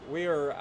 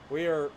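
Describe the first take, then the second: No difference in how they are said.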